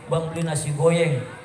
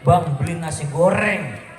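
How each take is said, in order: First: The r in goreng is replaced by a y. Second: The r in goreng is pronounced as r. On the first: The speaker cannot yet pronounce R. The speaker calls it wrong. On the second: The speaker has learned to pronounce R. The speaker calls it right.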